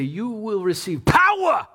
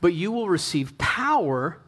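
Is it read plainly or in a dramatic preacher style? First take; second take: preacher; plain. First: It imitates an old Pentecostal preacher's dramatic delivery. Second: It is read in a plain reading voice.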